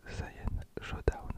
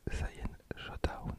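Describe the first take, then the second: No difference in how they are said.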